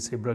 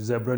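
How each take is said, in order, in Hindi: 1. शब्द की शुरुआत फुफकारती s ध्वनि से होती है। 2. शब्द की शुरुआत भिनभिनाती z ध्वनि से होती है। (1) "सेब्रा कहेंगे" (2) "ज़ेब्रा नहीं कहेंगे"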